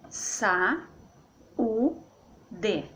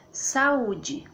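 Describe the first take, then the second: First: "sa, u, d" in three beats, d said as de; syllable by syllable. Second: Said in the usual way. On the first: Shown as a demonstration. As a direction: pause between sa, u and d. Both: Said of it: "Então fica assim".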